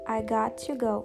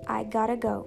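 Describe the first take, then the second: First: Got to is said fully and slowly. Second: Got to is said fast, reduced to gotta.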